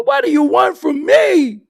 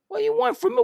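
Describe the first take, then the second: First: Much higher, louder hammed-up yell; mock shout. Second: Much higher, lightly voiced desperate hustler; mock pleading. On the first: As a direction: blow up at the listener in a put-on voice. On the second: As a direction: whine it in a put-on high voice. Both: Mocking pushy rapper.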